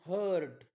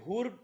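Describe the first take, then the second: First: The vowel sounds like 'uh'. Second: The vowel sounds like 'oo'. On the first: The speaker calls it right. "यू चा उच्चार अ होतो" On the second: The speaker calls it wrong. "असं वाचायचं नाही"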